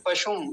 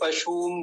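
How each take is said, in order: First: पशुम with a brief "shum" ending; पशुम, second vowel not stretched; short u. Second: पशुम stretched to "pashoom"; पशुम with an overlong second vowel; wrongly long u. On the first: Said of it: "पशुम में छोटा ऊ है". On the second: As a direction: drag out the u in पशुम. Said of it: "लंबा खींच देते हैं ऐसे करके". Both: Shown as a demonstration.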